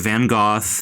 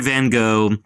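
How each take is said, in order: First: The name is said the British way. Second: The name is said the American way. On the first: "Brits and Aussies say Van Gogh" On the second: "Americans say Van Gogh"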